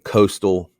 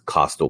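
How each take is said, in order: First: The first vowel sounds like in 'coast'. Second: The first vowel sounds like in 'cost'. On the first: The speaker calls it wrong. "Please do not say coastal. Coast is C O A S T" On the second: The speaker calls it right. "This is C O S T, cost"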